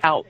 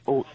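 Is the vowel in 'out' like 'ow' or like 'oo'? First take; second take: ow; oo. First: The vowel sounds like 'ow'. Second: The vowel sounds like 'oo'. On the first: "when you say out" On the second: "It's kind of like oot"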